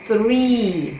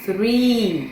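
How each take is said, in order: The two takes are said the same way.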